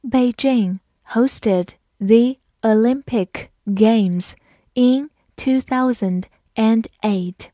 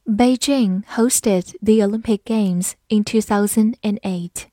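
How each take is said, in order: First: Slow, careful reading of each word; slow read-through. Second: Said in the usual way. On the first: Shown as a demonstration. Teacher reading the sentence slowly for students, word by word. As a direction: read it slowly for the learners to follow. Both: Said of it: "好，慢慢来读".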